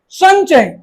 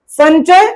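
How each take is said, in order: First: संचय said "sañ-chay"; palatal ny sound. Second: Slow "san-chay" for संचय; संचय with tongue-tip n; wrong n sound. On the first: Teacher corrects the mistake, संचय with ny. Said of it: "इया वाला उच्चारण करते हैं". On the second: Teacher names it a mistake, संचय with plain n. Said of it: "संचय गलती है". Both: Shown as a demonstration.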